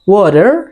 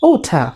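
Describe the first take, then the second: First: The r sound at the end is pronounced. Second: The word ends without any r sound. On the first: "আমেরিকানরা বলে ওয়াটার, শেষে রা উচ্চারণ করবে।" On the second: "British অ্যাকসেন্টে বলবে ওঠা, শেষে রা উচ্চারণ হবে না।"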